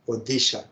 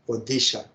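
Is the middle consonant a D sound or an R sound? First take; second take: D sound; D sound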